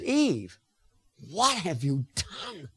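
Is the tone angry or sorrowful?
sorrowful. It is said in a pained, sorrowful tone.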